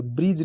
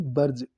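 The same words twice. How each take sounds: First: ब्रिज said "brij", with an i; wrong pronunciation. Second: ब्रज said as a short "barj"; correct pronunciation. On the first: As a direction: say ब्रिज with "bri". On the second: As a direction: say ब्रज with an a vowel. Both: Shown as a demonstration. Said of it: "ब्रिज नहीं".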